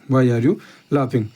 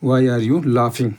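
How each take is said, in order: First: Said in the usual way. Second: Very slow, word by word; slow dictation. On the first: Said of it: "quick repeat after slow take". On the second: Shown as a demonstration. Teacher dictating the answer to students, very slow. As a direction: drag each word out so students can write it. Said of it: "slow take then normal repeat".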